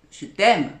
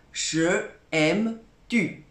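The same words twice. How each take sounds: First: Said in the usual way. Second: Je aime tu said slowly as a stiff literal translation; word-for-word gloss. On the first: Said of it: "Évidemment". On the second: Shown as a demonstration. Teacher glossing the Chinese literally, slow and deliberate. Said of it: "Évidemment, je, je t'aime".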